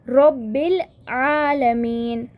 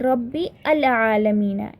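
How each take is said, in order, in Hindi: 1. आर्टिकल पिछले शब्द से जुड़ जाता है, जैसे 'Rabbil'। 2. आर्टिकल 'al' को एक अलग अक्षर की तरह बोला जाता है। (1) "I directly said Rabbil" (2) "I did not say Rabbi al Alameen. It is not like that"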